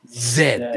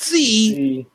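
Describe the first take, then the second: First: The letter name is said as 'zed'. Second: The letter name is said as 'zee'. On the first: The speaker calls it right. "it is pronounced Zed" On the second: The speaker calls it wrong. "not Z"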